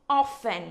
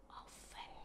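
First: Said in the usual way. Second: "Often" whispered, breath only. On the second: Shown as a demonstration. Teacher whispers "Often" as an echo for the class. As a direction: whisper "Often" back quietly. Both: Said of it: "nhớ phát âm cuối".

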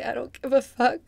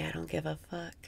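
First: Emphatic. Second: Softer, letting go; softly. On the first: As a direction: throw the words out boldly. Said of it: "Just say". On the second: Guiding the breath, saying the phrase softly. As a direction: say it gently on the in-breath. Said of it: "Breathe in and say". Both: Shown as a demonstration.

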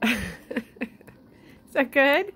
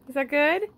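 First: Much higher, louder sing-song. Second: Much higher, rising coo. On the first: Owner cooing at the pet about the treat, high. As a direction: coo at the pet. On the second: Owner asking the pet in high baby talk. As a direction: coo the question. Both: Real, not acted.

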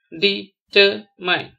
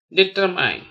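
First: "determine" very slowly as de, ter, mine; syllable by syllable. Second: Said in the usual way. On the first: Shown as a demonstration. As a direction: stop after each syllable of "determine". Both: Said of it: "spell the word".

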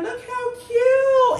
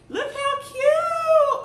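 First: Gushing. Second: High, slow, loud squeal of delight. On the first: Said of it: "I'ma put this up in there". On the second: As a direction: squeal it out like it's the cutest thing ever. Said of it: "I gotta show y'all something else". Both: Real, not acted.

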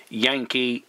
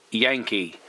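No difference in how they are said.

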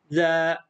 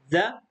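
First: "ذا" with the aa held long; long vowel. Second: "ذا" with a short a; short vowel. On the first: Teacher reads the long sound with pupils, drawn-out "ذا". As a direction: stretch the vowel of "ذا". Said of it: "الصوت الطويل". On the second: Teacher reads the short sound with pupils, quick "ذا". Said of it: "الصوت القصير". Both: Shown as a demonstration.

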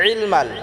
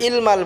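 First: ইলমাল opening on a squeezed throat ayn. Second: ইলমাল starting on a plain glottal vowel; hamza for ayn. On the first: Teacher modelling correct ইলমাল, throat-pressed ayn. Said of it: "আইন দিয়ে উচ্চারণ করতে হবে". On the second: Teacher warning learners, ইলমাল mispronounced with a plain hamza. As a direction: say ইলমাল with no throat squeeze. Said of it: "ইলমাল বললে এটা হামজা হয়ে যাবে". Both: Shown as a demonstration.

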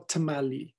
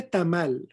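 First: "tamali" in English style, tuh-MAH-lee; anglicized pronunciation. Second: Said in the usual way. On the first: Shown as a demonstration. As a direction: say "tamali" like an American, adding a final ee. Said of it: "no tamali". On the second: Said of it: "Se dice tamal".

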